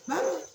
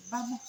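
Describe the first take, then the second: First: "Vamos" pitched high with a rising end; a lifted, urging "Vamos" answering the crowd; raised, rising retold "Vamos"; insistent call to go. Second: A quiet "Vamos" to get them moving; gentle retold "Vamos"; quiet call to go. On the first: Jesus repeats the call to go. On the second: Jesus calls the crowd to go.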